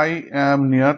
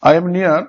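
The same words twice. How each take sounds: First: "I am near" as three separate beats; syllable by syllable. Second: Said in the usual way. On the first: Shown as a demonstration. Teacher showing three syllables, each said separately. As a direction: count out "I am near" one syllable at a time. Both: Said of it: "তিনটে syllable".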